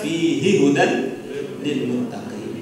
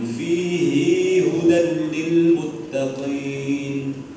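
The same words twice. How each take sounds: First: The vowel at the end of 'fihi' is short. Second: The vowel at the end of 'fihi' is long. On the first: This is the usual reading of the verse. "Kalau kita biasa" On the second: This is one traditional reading of the verse. "semua hak kinayah atau hak dhamir hu atau hi itu dibaca panjang"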